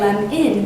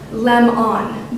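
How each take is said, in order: First: The second vowel is a short i sound. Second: The second vowel is a full o sound. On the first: "lem-in with an I sound" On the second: "should actually be pronounced lem-on"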